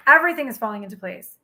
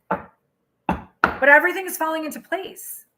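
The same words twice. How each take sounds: First: Fast, settled, falling at the end; quick firm affirmation. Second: Slow, stretched, lifting at the end; drawn out affirmation. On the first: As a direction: state EVERYTHING briskly and close it down. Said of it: "repeats the phrase, quick and firm". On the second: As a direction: savor EVERYTHING and let it rise. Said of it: "repeats the phrase, drawn out". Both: Shown as a demonstration.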